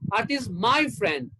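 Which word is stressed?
my. The word my carries the stress. She is the speaker's friend, not the listener's. "That means she's mine, not yours"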